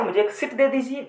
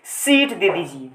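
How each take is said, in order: First: सीट clipped to sit, higher pitched; wrong short vowel. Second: सीट stretched slowly with a long ee; long vowel. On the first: Teacher showing students the wrong request, short i in सीट. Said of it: "ये तो नहीं कहोगे". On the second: Teacher repeating the seat request correctly, long ee in सीट. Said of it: "सीट बोलने में ज़्यादा sound देना पड़". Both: Shown as a demonstration.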